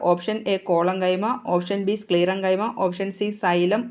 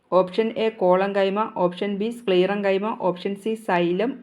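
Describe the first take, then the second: Both takes have the same delivery.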